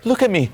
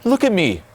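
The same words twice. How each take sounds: First: It is said in an eager, chasing tone. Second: It is said in an eager, chasing tone.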